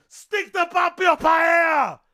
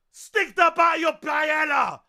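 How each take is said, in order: Both takes have the same delivery.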